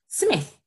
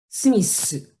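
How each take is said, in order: First: It ends with a th sound. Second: It ends with an s sound and vowel. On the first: "This sound. We don't have that sound in Japanese" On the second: "they may say Smith"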